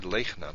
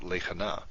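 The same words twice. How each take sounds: First: "lechna" in two syllables, lech-na; "lechna" with the shva silent, closing the first syllable. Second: "lechana" in three syllables, le-cha-na; "lechana" with the shva voiced as a little uh; vocal shva. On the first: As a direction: say "lechna" with no vowel between ch and n. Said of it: "the way you pronounce this". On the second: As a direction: say "lechana" with a short vowel between ch and n. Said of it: "not lechana". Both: Shown as a demonstration.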